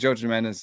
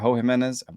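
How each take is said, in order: First: The first name begins with a J sound. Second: The first name begins with an H sound. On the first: The speaker calls it right. "you're supposed to say them differently" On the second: The speaker calls it wrong. "that's uh, not the way you say his name"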